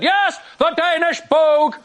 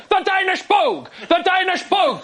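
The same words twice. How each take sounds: First: High, slow, emphatic bluffing dad; increased confidence. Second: High-pitched mock-angry insistence; getting angry. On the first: Retold or imitated. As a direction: double down with hammed-up certainty. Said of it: "increased confidence". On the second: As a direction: imitate an exasperated dad repeating himself. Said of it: "Started to get angry now".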